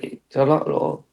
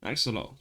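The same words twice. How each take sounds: First: "Axolotl" slowly drawn out, each syllable stretched; mispronounced axolotl. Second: "Axolotl" said quickly and softer, with a crisp t; correct axolotl. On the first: Retold or imitated. Friend mocking how he said the animal's name, slow. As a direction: mimic his stretched, wrong "Axolotl". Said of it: "you went". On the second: Shown as a demonstration. Host insisting on his own pronunciation, quietly. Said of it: "Don't you tell me how to pronounce my T's".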